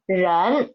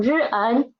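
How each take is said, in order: First: 人 said whole in second tone; blended syllable. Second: 日恩 in two parts, initial then final; sounded out. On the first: Teacher finishes the recap, 人 blended into one syllable. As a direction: run r and en together as one 人. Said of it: "second tone". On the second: Teacher recaps the spelling of the word, 日恩 sounded out. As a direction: separate the r sound from the en in 日恩. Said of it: "The initial 日, the final N". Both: Shown as a demonstration.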